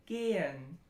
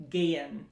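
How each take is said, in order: First: Gehen with a long, pure e and no y glide; German long e. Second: Gehen in an American accent, with a y glide; strong American accent. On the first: Teacher giving a German example, pure long e in gehen. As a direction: keep the e in gehen steady, no y. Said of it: "that's a long vowel too". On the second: Teacher warning learners, American-accented gehen with an audible y. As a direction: Americanise gehen as "gay-yen". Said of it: "a really strong American accent". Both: Shown as a demonstration.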